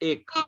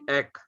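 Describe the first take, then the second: First: The word is pronounced the Hindi way. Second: The word is pronounced the Bengali way. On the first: "हिंदी में कहते हैं" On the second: "बंगाली में कहेंगे"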